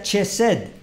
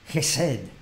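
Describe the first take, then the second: First: It begins with a 'ch' sound as in church. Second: It begins with a rough guttural throat sound. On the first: The speaker calls it wrong. "No se pronuncia Chesed" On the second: The speaker calls it right. "se pronuncia aquí guturalmente eh, como si fuera el alemán"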